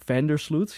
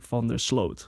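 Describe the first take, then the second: First: The stress is on the first part, Vander. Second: The stress is on the last part, Sloot. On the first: "how Americans pronounce that ... the emphasis on Vander" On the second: "here we would say"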